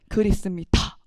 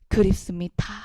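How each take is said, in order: First: It is read in a firm, decisive tone. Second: It is read in a sad, mournful tone. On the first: "단호하게 읽어" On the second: "애상적 어조로"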